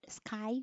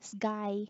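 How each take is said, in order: First: The sound after the s is a k. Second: The sound after the s is a g. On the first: "if the word is skirt, sky" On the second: "we say it instead sky"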